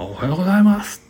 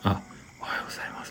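First: It is said loudly with great energy. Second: It is said in a tiny, breathy voice.

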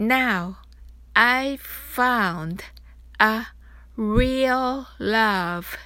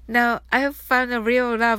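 First: The line is spoken at a slow pace. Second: The line is spoken at a fast pace. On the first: "それではゆっくり練習してみましょう。" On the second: "では早く言ってみましょう。"

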